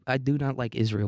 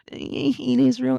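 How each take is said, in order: First: Said in the usual way. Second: Much higher, slow, whiny sneer; mock your own ranting self; mocking whiny poster. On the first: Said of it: "It's not what you do, it's the way you do it". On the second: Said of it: "that was just me being like".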